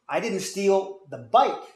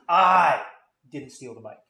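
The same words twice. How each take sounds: First: The word "bike" carries the strongest stress. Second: The word "I" carries the strongest stress. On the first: Something else was stolen instead. "I stole something, but it wasn't your bike" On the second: Someone else took the bike. "it was stolen, and I accept that, but I didn't do it"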